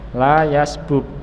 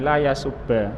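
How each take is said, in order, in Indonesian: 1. Kedua bunyi b tetap terpisah. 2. Kedua bunyi b melebur menjadi satu b ganda. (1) "asalnya adalah la yasbub" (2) "diidghamkan ba dengan ba, maka menjadi fathah ini la yasubba"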